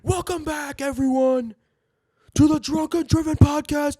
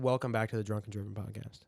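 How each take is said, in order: First: It is said like a confident WWE commentator. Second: It is said in a plain, casual voice.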